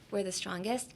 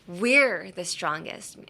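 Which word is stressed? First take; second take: none; We're. First: No word is given special stress. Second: The stress is on "we're".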